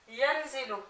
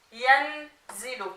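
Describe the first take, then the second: First: Said in the usual way. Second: Yanzilu slowly split after "yan"; slow, segmented "yanzilu" for a learner; syllable by syllable. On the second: Shown as a demonstration. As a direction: sound out "yanzilu" slowly, holding the n. Teacher assembles word from spelled syllables.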